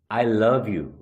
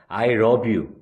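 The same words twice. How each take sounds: First: The word love starts with an L sound. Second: The word love starts with an R sound. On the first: I love you. The speaker calls it right. "I love you 라고 얘기해야 될 부분에서" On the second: I rub you. The speaker calls it wrong. "왜 날 문질러? 나 널 문질러"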